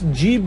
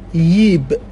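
First: The word begins with a j sound. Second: The word begins with a y sound. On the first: "ج در بسیار موارد در لهجه عراقی به صورت ی تلفظ میشه" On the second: "به صورت ی تلفظ میشه در بسیاری مناطق"

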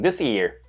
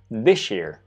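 First: The word 'this' ends in a plain 's' sound. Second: The 's' blends with 'year' into an 'sh' sound. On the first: "그냥 this year 라고 발음하셔도 전혀 무방합니다" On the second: "sh처럼 발음이 되는 거죠"

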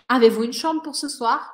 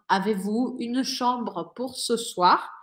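First: The sentence is said fast. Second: The sentence is said slowly.

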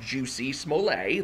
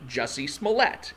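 First: The first name is pronounced like 'juicy'. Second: The first name is pronounced like 'jussie'. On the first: The speaker calls it wrong. "It is not Juicy Smollett. That is a Dave Chappelle joke" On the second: The speaker calls it right. "It is actually Jussie Smollett"

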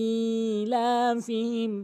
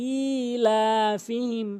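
The two takes are said the same way.

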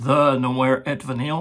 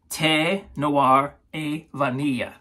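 First: The first word is said like English 'the'. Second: The first word is said the French way. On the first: The speaker calls it wrong. "that's not how you say it" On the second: The speaker calls it right. "the way you pronounce this is, in French"

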